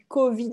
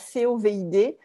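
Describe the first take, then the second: First: It is pronounced as a single word. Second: It is spelled out letter by letter. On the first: The speaker calls it right. "comme on dit COVID" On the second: The speaker calls it wrong. "et pas COVID"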